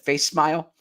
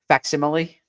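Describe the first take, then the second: First: The first part sounds like 'face'. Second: The first part sounds like 'fac'. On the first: The speaker calls it wrong. "I once said face smile" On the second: The speaker calls it right. "to finally pronounce this correctly"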